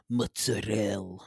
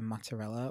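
First: It is said in an Italian New Jersey grandma accent. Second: It is said in the speaker's plain accent.

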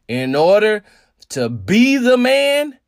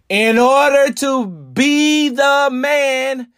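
First: It is said at a normal, quicker pace. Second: It is said slowly with careful enunciation.

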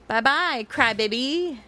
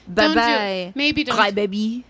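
First: It is said in the speaker's natural accent. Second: It is said in a put-on French accent.

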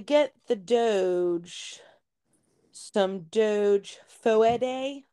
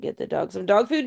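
First: Dog sounds like doge; food is drawn out oddly. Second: Dog and food are pronounced in the ordinary way. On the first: This imitates a child's playful mispronunciation. The speaker calls it wrong. "My kids thoroughly enjoy mispronouncing words" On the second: This is the ordinary pronunciation. The speaker calls it right. "Yes, get the dog some dog food"

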